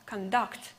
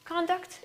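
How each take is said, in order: First: "conduct" as a verb, con-DUCT; weak, reduced con before DUCT in "conduct"; stress on last syllable. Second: "Conduct" as a noun, CON-duct; higher, full-vowel CON in "Conduct"; stress on first syllable. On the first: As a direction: put the weight on the end of "conduct". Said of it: "the last syllable is stressed". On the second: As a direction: hit the opening of "Conduct". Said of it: "has the first syllable stressed". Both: Shown as a demonstration.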